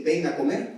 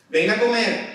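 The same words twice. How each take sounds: First: Said in the usual way. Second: Higher, louder mother's yell; mother calling loudly. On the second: Shown as a demonstration. Preacher voicing a mother calling her son, loud call. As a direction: shout it like a mum calling down the hall. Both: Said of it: "qué tiene que hacer un hijo".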